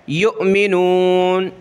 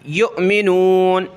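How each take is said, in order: Both takes have the same delivery.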